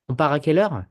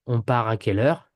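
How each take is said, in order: First: "On part à quelle heure" higher, swung up on "quelle heure"; marked question melody peaking at "heure"; rising question tone. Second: "On part à quelle heure" at usual pitch, fairly level; statement-like intonation. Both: Shown as a demonstration. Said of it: "So you get a rising, rising tone".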